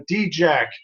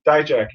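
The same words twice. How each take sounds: First: D-Jack said slowly as dee-jack; drawn out D-Jack, stumbling over the name; mispronounced name. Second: Dijak said as dye-jack; corrected name. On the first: Reviewer guessing a wrestler's name, slow dee-jack. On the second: Corrected by his co-host, says Dijak as dye-jack. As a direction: Dijak with a dye sound up front. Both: Real, not acted.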